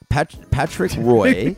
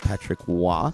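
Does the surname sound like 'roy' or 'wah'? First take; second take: roy; wah. First: The surname is said with an 'oy' sound. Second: The surname is said with a 'wah' sound. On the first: The speaker calls it right. "he said Patrick Roy" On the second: The speaker calls it wrong. "Nothing anywhere that says that should be pronounced Wah"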